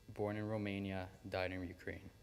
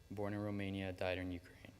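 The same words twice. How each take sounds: The two takes are said the same way.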